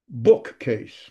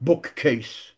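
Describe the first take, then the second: First: Bookcase as BOOK-case; natural English bookcase, strong BOOK; stress on first syllable. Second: Slow bookcase as book-CASE; stress on last syllable. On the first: Teacher gives another example, bookcase stressed on BOOK. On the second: Teacher shows the wrong accent, bookcase stressed on CASE. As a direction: drag the weight of bookcase onto CASE. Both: Shown as a demonstration. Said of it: "before the last syllable".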